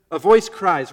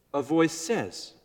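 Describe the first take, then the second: First: Loud, ringing proclamation; crying out. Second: Said in the usual way. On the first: Shown as a demonstration. Preacher contrasting two verses, loud crying-out voice. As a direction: lift the voice and proclaim it loudly.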